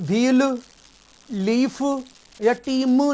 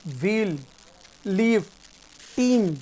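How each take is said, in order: First: व्हील, लीफ, टीम each with an added final vowel; wrong voiced endings. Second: व्हील, लीफ, टीम each one long syllable with a pause between; silent endings. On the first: Teacher showing what not to read, व्हील, लीफ, टीम with extra syllables. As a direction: say vee-lu, lee-fu, tee-mu for व्हील, लीफ, टीम. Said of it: "टीम नहीं पढ़ेंगे इन्हें". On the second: Teacher listing right readings, व्हील, लीफ, टीम as single syllables. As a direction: stretch EE in व्हील, लीफ, टीम, closing on the consonant. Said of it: "दूसरे वाले को silent रखते हैं". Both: Shown as a demonstration.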